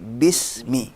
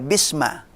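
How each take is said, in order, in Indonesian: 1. Kata ini diakhiri dengan vokal i. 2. Kata ini diakhiri dengan vokal a. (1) "tapi bismi" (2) "enggak dibaca bisma"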